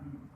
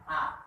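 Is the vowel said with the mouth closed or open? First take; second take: closed; open. First: The mouth stays closed, giving a hum. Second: The mouth opens wide on the vowel. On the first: The speaker calls it wrong. "baca huruf A tapi mulutnya dirapatkan" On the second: The speaker calls it right. "kalau buka mulutnya A berarti benar"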